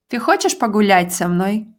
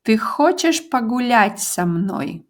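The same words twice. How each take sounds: First: "Ты хочешь погулять со мной?" said quickly, rising on хочешь; fast natural question. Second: "Ты хочешь погулять со мной?" said slowly with stress on хочешь; slow model question. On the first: Teacher repeating the question at native speed. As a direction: rattle it off naturally. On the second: Teacher modelling the question slowly. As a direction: say it slowly for the learner. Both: Shown as a demonstration. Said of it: "do you want to go for a walk with me".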